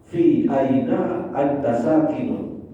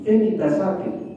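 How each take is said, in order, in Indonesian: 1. Setiap kata diucapkan penuh dan terpisah. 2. Kata-katanya disambung dan dipendekkan.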